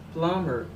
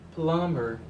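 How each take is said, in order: Both takes have the same delivery.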